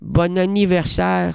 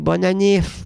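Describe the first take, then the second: First: The phrase is said in full, every syllable. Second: The phrase is clipped to a short form. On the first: "c'est compliqué" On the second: "On dirait que c'est moins sincère"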